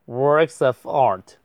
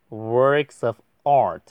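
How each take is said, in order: No difference in how they are said.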